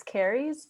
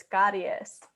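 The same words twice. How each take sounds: First: Caries as English "CARE-eez"; English merged vowels. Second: Caries as Spanish "KAH-ree-es", tapped R; every vowel pronounced. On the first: Tutor showing the English way, caries as "CARE-eez". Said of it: "we like to merge the sounds". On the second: Tutor showing the Spanish way, caries with every vowel. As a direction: say caries with I and E both sounded. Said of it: "we pronounce every single vowel". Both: Shown as a demonstration.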